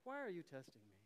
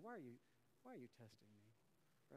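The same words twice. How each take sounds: First: Cool, even, unbothered; calm Jedi-like rebuke. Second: Low, hushed and unhurried; quiet calm rebuke. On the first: Pastor coaching calm reply to family member, unbothered. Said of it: "Like a Jedi". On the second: Pastor coaching church on Thanksgiving retort, hushed calm. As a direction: softly turn the question back. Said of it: "Just say that to him". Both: Shown as a demonstration.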